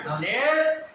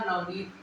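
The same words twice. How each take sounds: First: The 'nee' vowel is drawn out long. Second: The 'nee' vowel is short and plain. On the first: Someone is being called out to. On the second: The name is simply stated.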